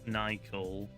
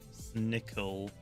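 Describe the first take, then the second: First: The vowel sounds like the one in 'icicle'. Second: The vowel sounds like the one in 'snake'.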